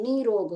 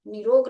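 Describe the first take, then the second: First: निरोग with a long "nee"; correct long-ee form. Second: निरोग with a quick short i; wrong short-i form. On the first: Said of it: "बड़ी ई की मात्रा लगेगी". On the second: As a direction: say निरोग as "ni-rog". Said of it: "निरोग नहीं होता है". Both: Shown as a demonstration.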